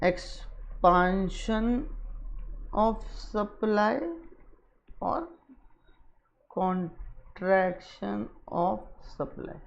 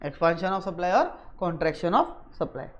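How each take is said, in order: First: Very slow, soft, broken into syllables; low, drawn-out, with long pauses; writing-along pace. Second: Soft, low read-back in connected phrases; measured, low and soft. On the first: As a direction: murmur it piece by piece as you write. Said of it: "मैं इसलिए दोबारा यहाँ पे लिख रहा हूँ". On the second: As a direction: read the written heading back quietly. Reads back what was written. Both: Real, not acted.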